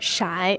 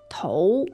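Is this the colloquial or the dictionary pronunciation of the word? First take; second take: colloquial; dictionary. First: The word is said in its everyday spoken form. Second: The word is said in its formal dictionary form. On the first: This is how people say it in daily speech. "in the colloquial terms, it's 骰" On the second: This is the form listed in dictionaries. "in the dictionary, the die or dice is translated as"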